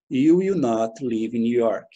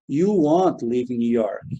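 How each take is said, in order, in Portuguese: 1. Will e not são ditos como duas palavras. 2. Will not é encurtado em uma palavra rápida só. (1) "Posso fazer o will not de forma separada" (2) "ou posso fazer aqui também, ó, want"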